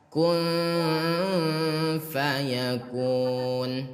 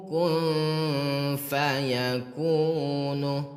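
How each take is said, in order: First: The last word ends on a bare consonant. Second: The last word ends with a short vowel. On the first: The speaker calls it right. "di akhir ayat itu harus dibaca mati atau sukun" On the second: The speaker calls it wrong. "kenapa nomor dua salah? Yang Ustadz baca"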